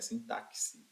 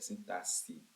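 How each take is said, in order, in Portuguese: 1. O x não tem som de s. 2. O x tem som de s. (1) "não é sintaxe" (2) "é como se fosse um S aqui"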